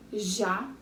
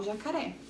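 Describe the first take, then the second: First: "Jacaré" split as Ja, ca, ré with long gaps; teacher breaking "Jacaré" into three syllables. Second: Said in the usual way. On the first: Shown as a demonstration. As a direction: count out each beat of "Jacaré" separately. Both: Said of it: "Vamos ver quantas sílabas tinha".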